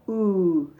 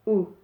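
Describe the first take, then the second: First: The vowel sound is long and drawn out. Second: The vowel sound is short and clipped. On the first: "The long oo, we pull" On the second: "U for short"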